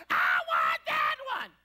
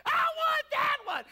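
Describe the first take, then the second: First: Very low, slow, loud bellow of the same plea; deep mock wail. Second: Put-on high wailing child's cry, slow and loud; whining child. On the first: Boy repeats his demand to mom in a low booming wail. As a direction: drop to a booming low groan. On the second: Little boy wailing at mom in the toy aisle, high and loud. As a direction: wail like a boy denied his toy.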